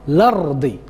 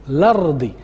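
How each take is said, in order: No difference in how they are said.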